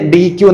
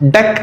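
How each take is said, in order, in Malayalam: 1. ഇത് dee-queue പോലെ രണ്ട് സിലബിളായി പറയുന്നു. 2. ഇത് deck പോലെ ഒരു സിലബിളായി പറയുന്നു. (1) "പക്ഷെ പലരും അതിനെ ഡി ക്യൂ എന്ന് പറയുന്നത്" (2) "ഡെക് എന്ന് പ്രൊനൗൺസ് ചെയ്യും"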